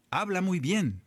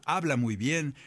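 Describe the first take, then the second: First: "Habla muy bien" lifted high with a falling stress on "bien"; emphatic praise. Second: Said in the usual way. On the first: Retold or imitated. A servant praising David to the king, "bien" stressed high.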